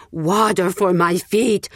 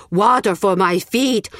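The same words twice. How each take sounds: First: Slow croaking plea for water; croaking beggar. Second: Slow, louder begging croak; croaking beggar, pleading harder. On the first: Old beggar calling at the village gates, croaking. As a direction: drag the words out like a parched beggar. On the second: Beggar calling again to the villagers, pleading croak. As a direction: beg more urgently the second time. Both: Acted. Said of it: "he croaked".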